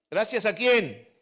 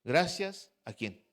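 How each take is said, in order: First: Raised, louder call for an answer; rousing question. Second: Said in the usual way. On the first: Real, not acted. Preacher asks the congregation again, rousing louder question. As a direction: demand the answer from the crowd.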